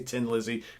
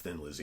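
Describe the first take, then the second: First: The first word begins with a plain 't' sound. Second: The first word begins with a 'th' sound. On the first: This is how people from Ireland say it. "you say Tin Lizzy because you don't pronounce H's" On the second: This is how most of the world says it. "Most of the world says Thin Lizzy"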